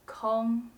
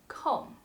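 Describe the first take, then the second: First: The syllable is said on a high level tone. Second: The syllable is said on a falling tone. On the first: A space is empty. "the first tone" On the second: Something is not occupied or not in use. "it is pronounced the fourth tone"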